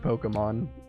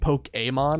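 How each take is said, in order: First: The final vowel is reduced to a soft sound. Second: The final vowel is said clearly and fully. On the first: This is the casual everyday pronunciation. "I kind of just drop it as like a very soft sound" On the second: This is the official pronunciation. "the official official pronunciation"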